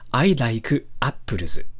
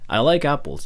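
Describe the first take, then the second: First: It is said with a Japanese accent. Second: It is said with a native English accent.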